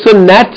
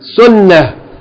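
First: The word ends with a t sound. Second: The word ends with an h sound. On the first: The speaker calls it wrong. "We don't say sunnat" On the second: The speaker calls it right. "The last letter is ha"

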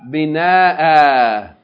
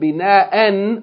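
First: The word ends with a long vowel. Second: The word ends with an n sound. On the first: The reader stops on this word. "you pronounce it as though it's a long vowel" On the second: The reader continues on to the next word. "instead of pronouncing it tanween"

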